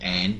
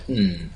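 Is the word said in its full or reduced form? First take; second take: full; reduced. First: The full vowel and final d are said. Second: Only a short n sound is said. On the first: "changing pronunciation from and" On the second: "to n there"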